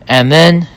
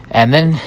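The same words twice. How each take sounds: The two takes are said the same way.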